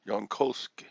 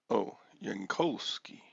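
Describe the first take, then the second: First: "Yankovsky" said louder with a questioning rise; louder rising "Yankovsky"; repeating the name. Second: "Yankovsky" tried slowly with a rising "Oh"; careful first try at "Yankovsky"; trying the name. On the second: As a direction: sound out "Yankovsky" carefully, yahn-KOV-skee. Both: Shown as a demonstration. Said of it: "how do you pronounce your last name".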